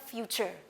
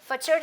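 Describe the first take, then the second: First: The vowel after f sounds like 'you'. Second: The vowel after f is a short 'uh'. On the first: The speaker calls it right. "यानी मैं यहाँ पर यू की letter sound बोल रही हूँ" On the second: The speaker calls it wrong. "मैंने फचर तो नहीं कहा"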